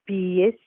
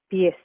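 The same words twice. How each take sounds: First: The word is said slowly and carefully. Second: The word is said quickly and fluently. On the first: "the slow pronunciation" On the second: "the fluent pronunciation"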